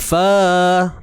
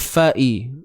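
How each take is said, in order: First: The a is stretched with no catch after it. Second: A glottal catch and an i follow fa. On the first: The speaker calls it wrong. "Bukan fa, tak mau" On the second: The speaker calls it right. "kena fa'i"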